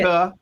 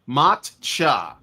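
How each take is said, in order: First: The middle consonant is a k sound. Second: The middle consonant is a ch sound. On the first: The speaker calls it wrong. "not maca" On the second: The speaker calls it right. "That's it"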